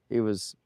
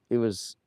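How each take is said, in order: Both takes have the same delivery.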